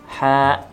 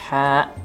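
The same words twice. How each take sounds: No difference in how they are said.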